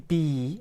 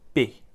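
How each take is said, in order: First: The vowel is long and full. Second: The vowel is quick and short. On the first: The speaker calls it wrong. "It's not really be" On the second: The speaker calls it right. "it's more of a be. Quick I sound"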